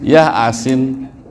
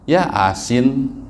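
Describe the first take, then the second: Both takes have the same delivery.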